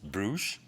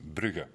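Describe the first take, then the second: First: The name is pronounced the French way. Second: The name is pronounced the Dutch way. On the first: "in French, it's Bruges" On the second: "in Dutch, it's Brugge"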